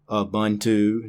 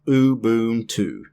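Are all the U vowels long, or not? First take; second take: not all; all long. First: Not all the U vowels are long. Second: All the U vowels are long. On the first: The speaker calls it wrong. "not Ubuntu" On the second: The speaker calls it right. "All long U's"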